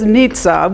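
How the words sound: The name is said with an Italian pronunciation.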